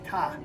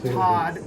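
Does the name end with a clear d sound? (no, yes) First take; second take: no; yes. First: The name ends without the d sound. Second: The name ends with a clear d sound. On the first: "if you're Chinese, you say Ta" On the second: "it's Todd"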